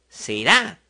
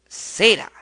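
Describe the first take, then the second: First: The stress is on the last syllable. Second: The stress is on the next-to-last syllable.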